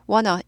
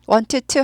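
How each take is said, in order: First: The words blend together without a t sound. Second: Both words are said fully with a clear t. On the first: The speaker calls it right. "t로 튀는 발음 싫어서 어떻게 되나요? wanna" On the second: The speaker calls it wrong. "want to 하지 않아요"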